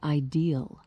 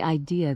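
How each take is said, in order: First: The word ends with an added L sound. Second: The word ends in a vowel without an L. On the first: "they say ideal every time" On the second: "they don't say idea"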